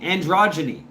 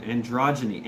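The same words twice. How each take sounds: First: ANDROGYNY punched higher and louder; "Androgyny" said with triumphant emphasis; emphatic word attempt. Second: Said in the usual way. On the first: Real, not acted. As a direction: land "Androgyny" firmly, raised in pitch and volume. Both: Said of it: "I'm trying to say this word".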